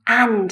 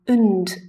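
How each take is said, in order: First: The word has a full vowel and final d. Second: The word has a schwa vowel and final d. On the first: "And is the strong form" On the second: "und is the weak form"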